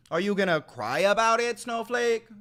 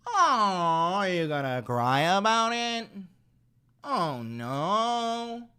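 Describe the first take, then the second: First: Loud jeering question, pitch up on snowflake; loud taunt. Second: Higher, babying mock-sympathy voice; mock pity. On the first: Real, not acted. Streamer jeering at a chatter defending Miller, loud taunt. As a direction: jeer it loudly at them. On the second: Streamer mocking a chatter as a crybaby, higher mock-pity voice. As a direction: coo it like comforting a crybaby.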